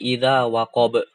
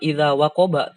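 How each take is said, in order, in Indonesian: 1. Kata terakhir berakhir dengan bunyi konsonan. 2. Kata terakhir berakhir dengan bunyi vokal. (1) "tapi idza waqob. Disukunkan" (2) "Kita bacanya ketika waqaf bukan idza waqoba"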